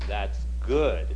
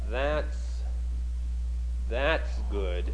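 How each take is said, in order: First: The stress falls on the word good. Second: The stress falls on the word that's. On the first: The speaker calls it right. "what he should have said was" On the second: The speaker calls it wrong. "he emphasized that's good as a contrast on that's"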